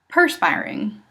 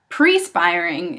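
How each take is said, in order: First: The first syllable is said as 'per'. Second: The first syllable is said as 'pre'. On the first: The speaker calls it right. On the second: The speaker calls it wrong.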